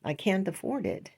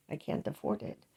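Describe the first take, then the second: First: Said in the usual way. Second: "I can't afford it" whispered, much softer than the first time; whispered repeat. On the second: Real, not acted. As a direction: breathe "I can't afford it" as a hushed aside.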